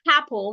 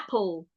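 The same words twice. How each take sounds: First: The word begins with an added H sound. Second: The word begins directly with a vowel sound. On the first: The speaker calls it wrong. "We add the H to it" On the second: The speaker calls it right. "Simply say apple"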